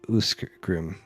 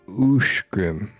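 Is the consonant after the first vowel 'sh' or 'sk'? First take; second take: sk; sh. First: The name is said with an 'sk' sound. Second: The name is said with an 'sh' sound. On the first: The speaker calls it wrong. "and not Uskgrim" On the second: The speaker calls it right. "is pronounced Ushgrim"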